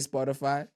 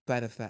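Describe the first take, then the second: First: The s sound is pronounced clearly. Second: The s sound is pronounced with a lisp. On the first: "one second he can say Spotify" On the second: "next second he'll say Spotify"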